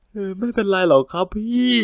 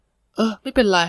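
First: Higher, small pitiful voice; meek sad voice. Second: High mock-resigned giving in; indulgent sigh. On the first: Acted. Junior fakes a meek voice to his comforting coworker. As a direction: play it weak and pitiful for sympathy. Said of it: "ไม่ทำเสียงอ่อยสิลูก". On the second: Older coworker giving in to the junior's trick, mock resigned. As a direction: let it go fondly.

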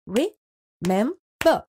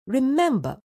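First: Remember said slowly as re-mem-ber; slow syllables. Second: Said in the usual way. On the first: Shown as a demonstration. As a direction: space out each syllable of remember. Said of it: "re-mem-ber". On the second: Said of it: "Split up the given words into syllables".

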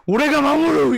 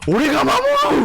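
First: Loud anime hero vow, second take; earnest determined anime hero. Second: Loud anime hero vow; earnest determined anime hero. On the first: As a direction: shout the vow like a shonen lead. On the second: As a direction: declare it like a shonen protagonist. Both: Retold or imitated. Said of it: "막 이런 거 있잖아".

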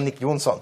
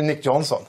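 First: "Nick Jonsson" as a Swedish name, J like Y; Swedish pronunciation. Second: "Nick Johnson" with an English J sound; English pronunciation. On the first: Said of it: "som jag trodde var svensk". ("Nick Jonsson" med svenskt uttal) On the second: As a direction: say "Nick Johnson" as a non-Swedish name. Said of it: "men som ju inte är det". ("Nick Johnson" med engelskt uttal) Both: Shown as a demonstration.

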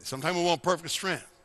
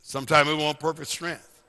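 First: Said in the usual way. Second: Deliberate, slightly slowed repeat; measured, spelled-out emphasis; real slow. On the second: Shown as a demonstration. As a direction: say it slowly so it sinks in. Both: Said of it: "Should I say it real slow?".

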